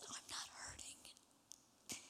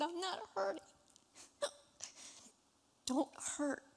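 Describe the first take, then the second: First: Slow, breathless whisper of a dying man; faint whisper. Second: Choked-up tears. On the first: Retold or imitated. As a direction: barely breathe the words out. Dying father's weak reply retold. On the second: Real, not acted. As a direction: say it as tears break through. Retelling father's words, overcome.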